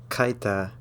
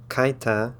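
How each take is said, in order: Both takes have the same delivery.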